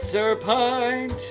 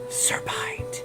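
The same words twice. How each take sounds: First: It is spoken in a normal voice. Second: It is spoken in a whisper.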